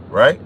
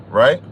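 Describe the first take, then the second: Both takes have the same delivery.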